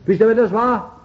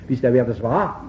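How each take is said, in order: First: Loud, high challenge to the congregation; raised-voice preacher's quiz; insistent repeated question. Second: Said in the usual way. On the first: Real, not acted. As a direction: call the question out, demanding an answer.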